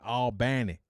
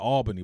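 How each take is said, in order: First: It is pronounced the Southern Georgia way. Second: It is pronounced the northern way.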